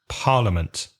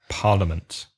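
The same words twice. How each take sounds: The two takes are said the same way.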